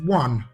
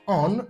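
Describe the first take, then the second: First: It begins with a W sound. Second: It begins with a plain vowel sound. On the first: The speaker calls it right. "rather we pronounce it as one" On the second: The speaker calls it wrong. "we do not pronounce it as on"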